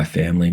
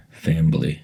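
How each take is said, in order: First: Said in the usual way. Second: "Family" with a B slipped in, fam-bly; Southern-style pronunciation. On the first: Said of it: "except with that Southern style accent". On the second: A narrator's reading. Grandmother greeting her family, "Family" drawn into Southern "fam-b-ly". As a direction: say "Family" as Southern "fambly", three syllables. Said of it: "with that Southern style accent and all the weeping".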